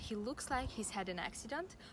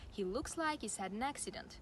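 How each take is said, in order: First: The h sound in he is pronounced. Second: The h sound in he is dropped.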